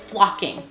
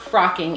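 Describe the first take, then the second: First: The word is said with an L sound. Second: The word is said with an R sound. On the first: The speaker calls it right. "it's flocking" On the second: The speaker calls it wrong. "My husband calls it frocking. It's not frocking"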